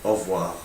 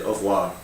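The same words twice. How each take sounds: First: It is said fast with some sounds dropped. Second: It is said fast with some sounds dropped.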